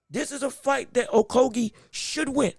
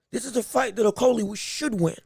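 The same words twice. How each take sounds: First: "Okogie" said with a G in place of the L; "Okogie" with a g sound before the final ee; mispronounced name. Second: "Okolie" said with an L in place of the G; "Okolie" with an l sound before the final ee; corrected name. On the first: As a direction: slip on the name, saying "Okogie" with a hard G. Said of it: "why am I saying Okogie?". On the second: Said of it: "There's no G in the name". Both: Real, not acted.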